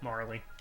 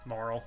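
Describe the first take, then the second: First: The name is said as two syllables. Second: The name is said as one syllable. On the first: This is how the speaker first assumed it was said. "I always said Marley when I first played this" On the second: This is the commonly accepted pronunciation. "Marl seems to be the accepted pronunciation"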